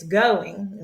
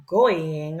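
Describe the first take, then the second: First: Said in the usual way. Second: GOING misread as GOY-ing, vowels run together; wrong reading. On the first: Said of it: "right? It's going". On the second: Shown as a demonstration. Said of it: "It's not gonna be".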